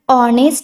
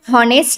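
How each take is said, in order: First: The word begins directly with a vowel. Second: The word begins with an h sound. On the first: The speaker calls it right. "याला आपण ऑनेस्ट वाचतो" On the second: The speaker calls it wrong. "याला आपण हॉनेस्ट नाही वाचत"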